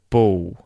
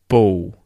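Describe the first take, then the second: First: The final L sounds like a W vowel. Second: The final L sounds like a W vowel.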